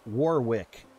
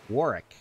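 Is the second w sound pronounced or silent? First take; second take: pronounced; silent. First: The second w sound is pronounced. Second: The second w sound is left silent. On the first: The speaker calls it wrong. "every time he sees Warwick, Warwick. Like, no, you don't pronounce the second W" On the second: The speaker calls it right. "you don't pronounce the second W. It's Warwick"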